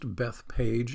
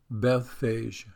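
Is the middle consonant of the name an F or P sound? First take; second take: P; F. First: The middle consonant is a P sound. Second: The middle consonant is an F sound. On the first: The speaker calls it wrong. "it's not really pronounced Bethpage. It's the way I've always pronounced it" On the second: The speaker calls it right. "that PH in there, which I don't know why that sounds like an F"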